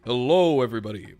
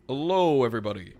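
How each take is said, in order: First: Deeper second stab at a YouTuber greeting; big, loud host greeting sinking into a deep voice; Markiplier. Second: A stab at a deep YouTuber greeting; loud first word dropping low, lightly put on; attempted deep-voiced host; Markiplier. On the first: Acted. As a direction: boom the hello, then drop low. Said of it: "It's, like, lower than that". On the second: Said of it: "he's got a very deep voice".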